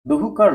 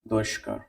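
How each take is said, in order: First: An h sound comes before kar. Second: A sh sound comes before kar. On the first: The speaker calls it wrong. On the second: The speaker calls it right.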